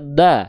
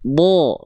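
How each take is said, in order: First: The vowel sounds like a clear, light A. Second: The vowel sounds dark and heavy, close to O. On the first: The speaker calls it wrong. "Nggak dibaca da" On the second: The speaker calls it right. "Tapi bo. Bo terdengar seperti vokal O"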